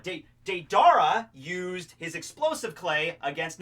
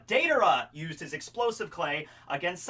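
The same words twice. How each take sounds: First: Deidara slipped into day-DAR-uh; Deidara stressed on the middle syllable; mistaken pronunciation. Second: Deidara said DAY-duh-ruh; Deidara with the stress on the first syllable; corrected pronunciation. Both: Shown as a demonstration. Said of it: "no, De".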